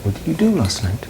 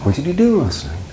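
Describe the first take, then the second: First: "do" stressed, pitch falling through "last night"; quick softer repeat stressing "do"; fast model repeat. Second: Teacher demo of a falling wh-question; slow model question. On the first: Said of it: "It goes up on do and then down". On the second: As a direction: stress on do, falling at the end. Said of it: "is it going up or going down". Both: Shown as a demonstration.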